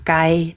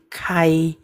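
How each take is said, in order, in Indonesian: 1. Konsonan pertama tidak ada hembusan udara. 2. Konsonan pertama ada hembusan udara. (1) "Bukan kai" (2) "Ada anginnya"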